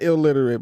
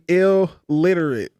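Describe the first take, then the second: First: It is said quickly with no pause. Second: There is a short pause after 'ill'. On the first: It is the ordinary word for unable to read. The speaker calls it wrong. "not illiterate" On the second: It is the rap name, ill plus literate. The speaker calls it right. "My rap name used to be"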